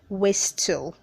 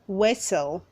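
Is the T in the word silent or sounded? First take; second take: sounded; silent. First: The T sound is clearly pronounced. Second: The T sound is not pronounced. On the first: The speaker calls it wrong. "Don't say whistle" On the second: The speaker calls it right. "The T is silent"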